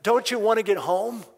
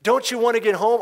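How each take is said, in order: First: Loud, high exasperated yell; retold soldier yell. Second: Even louder, higher pleading yell; retold soldier yell, pushed harder; louder repeated yell. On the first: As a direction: bark the question at the noisy kid. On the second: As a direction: hammer the question home a second time. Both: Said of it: "he yells at the boy".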